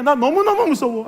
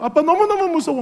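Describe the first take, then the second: First: Put-on higher, pleading child's 너무너무 무서워; scared child. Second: Higher still, pleading 아빠 너무너무 무서워; scared child. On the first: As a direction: whine 너무너무 like a frightened little girl. (무서워서 우는 아이 흉내) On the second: Retold or imitated. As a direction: call to daddy, more desperate. (아빠를 부르며 더 애처롭게 우는 아이 흉내) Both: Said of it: "막 그러면서 계속 우는 거예요".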